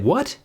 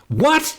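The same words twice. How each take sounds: First: It sounds warm and friendly, said with a smile. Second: It sounds angry, followed by a harsh breath out. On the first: "when I smile and say" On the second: "glaring at you and blowing off steam with the word"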